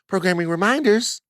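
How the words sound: It is said in a put-on phone voice.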